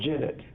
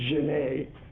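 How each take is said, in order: First: The name is said with an anglicized pronunciation. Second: The name is said with a French pronunciation. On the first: The speaker calls it wrong. "For you country guys, that's called Genet" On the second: The speaker calls it right. "For people who speak French, it's Genet"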